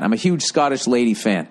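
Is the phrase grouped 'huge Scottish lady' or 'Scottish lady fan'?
Scottish lady fan. The words 'Scottish lady fan' are grouped together. The person is a big fan. The speaker calls it right.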